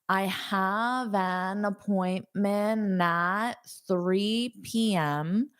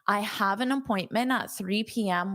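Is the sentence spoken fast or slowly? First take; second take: slowly; fast. First: The sentence is spoken at a slower pace. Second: The sentence is spoken at a fast pace.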